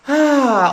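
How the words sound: The 'ah' sounds startled and surprised. It releases surprise. "of surprise"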